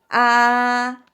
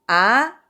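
First: It is said with the high first tone. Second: It is said with the second tone. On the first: "1성은 가장 높은 솔 소리 잡으시면 되고" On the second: "2성은"

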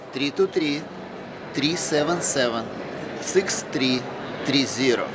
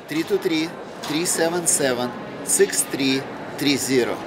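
First: The number is said more slowly. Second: The number is said at normal speed.

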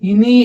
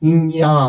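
First: It ends in a 'ni' sound. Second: It ends in a 'nya' sound. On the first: The speaker calls it wrong. "చాలా మంది దీన్ని ఇని, ఇని అని చదువుతారు. ఇని దయచేసి అలా పిల్లలకి చెప్పొద్దు" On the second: The speaker calls it right. "అనునాసికం కూడా అక్కడే పుడుతుంది"

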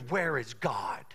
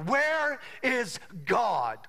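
First: It is said at a calm, normal volume. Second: It is said noticeably louder.

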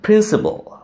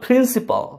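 First: The final l is syllabic with no vowel. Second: A full vowel is pronounced before the final l. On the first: The speaker calls it right. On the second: The speaker calls it wrong.

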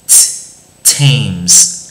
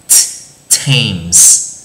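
No difference in how they are said.

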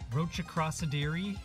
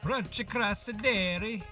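First: The word is said in the speaker's normal accent. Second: The word is said in a put-on accent.

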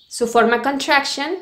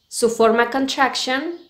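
No difference in how they are said.

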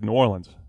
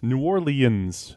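First: The name is squeezed, sounding almost like Nolens. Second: The name is said with all its syllables. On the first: "Almost Nolens" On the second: "Announcers do it like that"

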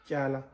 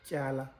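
The two takes are said the same way.

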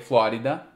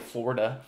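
First: It is said with Portuguese sounds. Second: It is said with English sounds.

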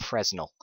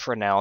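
First: The S in the middle is pronounced. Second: The S in the middle is silent. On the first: The speaker calls it wrong. "not Fresnel" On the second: The speaker calls it right. "it's pronounced Fresnel"

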